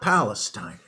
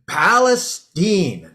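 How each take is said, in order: First: The name is said the usual non-Texas way. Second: The name is said the local Texas way. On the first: The speaker calls it wrong. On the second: The speaker calls it right.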